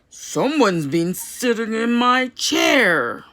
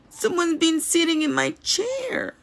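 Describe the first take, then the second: First: It is said in a big, deep voice. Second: It is said in a small, squealing voice.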